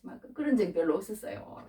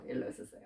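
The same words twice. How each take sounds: First: Said in the usual way. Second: Murmured echo. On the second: Real, not acted.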